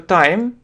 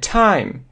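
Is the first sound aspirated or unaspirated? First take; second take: unaspirated; aspirated. First: The t is said without a puff of air. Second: The t is said with a puff of air. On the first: The speaker calls it wrong. "многие говорят просто time" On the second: The speaker calls it right. "Такое придыхание"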